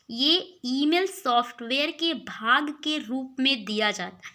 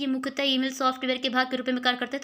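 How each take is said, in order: First: It is read slowly and deliberately. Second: It is read quickly, rushing through.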